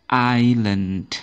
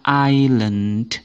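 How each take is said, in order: No difference in how they are said.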